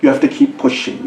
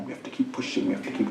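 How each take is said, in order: First: Said in the usual way. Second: Unvoiced hushed repeat; soft whispered urging. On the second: Shown as a demonstration. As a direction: whisper it intently. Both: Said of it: "Who wants it more?".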